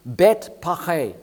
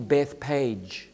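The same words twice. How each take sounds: First: The name is given its Hebrew pronunciation. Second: The name is given its English pronunciation. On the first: "That's the Hebrew" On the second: "it's actually Bethpage in the English"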